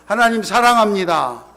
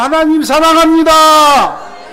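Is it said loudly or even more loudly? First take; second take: loudly; more loudly. First: It is said in a loud voice. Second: It is said in an even louder voice.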